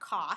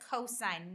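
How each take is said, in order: First: The word is clipped short to one syllable. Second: The word is said in full with two syllables. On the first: The speaker calls it wrong. "not cos" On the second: The speaker calls it right. "you would read this as cosine"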